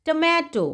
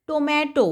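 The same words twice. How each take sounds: First: टोमेटो with a weak first syllable, "tuh-meh-toh"; correct pronunciation. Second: टोमेटो with a full "to-MAY-to" first syllable; wrong pronunciation. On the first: Teacher giving kids the right form, टोमेटो as "tuh-meh-toh". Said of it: "इसे पढ़ते हैं टोमेटो". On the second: Teacher showing kids the wrong way, टोमेटो said "toh-meh-toh". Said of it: "टोमेटो इसे नहीं पढ़ा जाता". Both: Shown as a demonstration.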